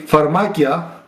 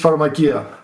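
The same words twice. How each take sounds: First: The stress is on the middle syllable. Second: The stress is not on the middle syllable. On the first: It means poisons or lethal drugs. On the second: It means drugstores.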